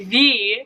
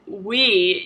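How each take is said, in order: First: The word begins with a V sound. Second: The word begins with a W sound. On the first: This is how Germans say it. "you say V" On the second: This is how English speakers say it. "You don't say we"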